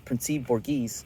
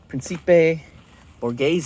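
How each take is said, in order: First: The name is said with an American accent. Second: The name is said with an Italian accent.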